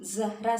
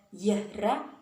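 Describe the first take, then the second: First: The name begins with a z sound. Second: The name begins with a y sound. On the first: The speaker calls it right. "za sebenarnya pakai huruf za" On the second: The speaker calls it wrong. "z berubah menjadi huruf ya"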